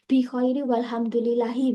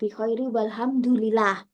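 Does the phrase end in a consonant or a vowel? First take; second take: vowel; consonant. First: The phrase ends with a short vowel sound. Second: The phrase ends with a bare consonant sound.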